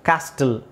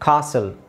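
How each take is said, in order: First: The t sound is pronounced in the middle. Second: The t sound is silent in the middle. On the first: The speaker calls it wrong. "ಕ್ಯಾಸ್ಟಲ್ ಅಂತ ಹೇಳಲ್ಲ" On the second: The speaker calls it right. "ಕಾಸಲ್ ಅಂತ ಹೇಳ್ತಾರೆ ಅದನ್ನು"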